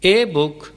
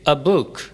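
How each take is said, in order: First: The article is said as a full 'ay'. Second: A light, short 'uh' joined to the noun. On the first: The speaker calls it wrong. "कहना दुरुस्त नहीं" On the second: The speaker calls it right. "आ को अलिफ की हल्की सी आवाज़ देते हैं"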